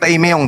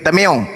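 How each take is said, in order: First: The first syllable is said like 'tai'. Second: The first syllable is said like 'ta'. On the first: The speaker calls it wrong. "bukan taimeong" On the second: The speaker calls it right. "tapi tameong"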